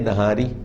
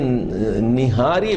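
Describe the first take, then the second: First: The first vowel is a short 'a'. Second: The first vowel is a short 'i'. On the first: The speaker calls it right. "होना तो चाहिए नहारी" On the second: The speaker calls it wrong. "ये निहारी गलत लोग बोलते हैं"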